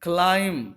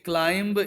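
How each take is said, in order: First: The b sound is silent at the end. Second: The b sound is pronounced at the end. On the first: The speaker calls it right. "ये right pronunciation है, बी silent होता है" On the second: The speaker calls it wrong. "ये wrong pronunciation है"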